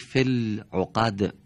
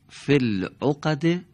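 First: The phrase ends on a bare consonant. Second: The phrase ends with a short vowel. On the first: "در هنگام وقف اون حرکت به سکون تبدیل میشه" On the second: "حرف آخر اونها دارای یکی از حرکات"

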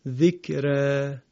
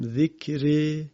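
First: The final vowel lies between a and e. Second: The final vowel is fully fronted toward e. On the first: "یکی هم ذکره میشود اماله صغرا" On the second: "یکی اماله است که اول من در واقع تلفظ کردم ذکره که به این میگن اماله کبرا"

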